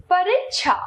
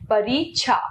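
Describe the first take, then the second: First: Short इ after र in परीक्षा; mispronounced परीक्षा. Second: Long ई after र in परीक्षा; correct परीक्षा. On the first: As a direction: say परीक्षा as "pa-rik-sha". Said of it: "अशुद्ध". (परीक्षा का अशुद्ध उच्चारण, "परिक्षा") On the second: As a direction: say परीक्षा as "pa-reek-sha". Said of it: "इसका शुद्ध है". (परीक्षा का शुद्ध उच्चारण, बड़ी ई से) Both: Shown as a demonstration.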